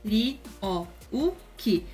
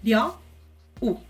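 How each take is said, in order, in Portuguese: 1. O nome se divide em quatro sílabas. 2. O nome se divide em duas sílabas. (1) "são quatro sílabas" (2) "Tem que ser dois fonemas apenas"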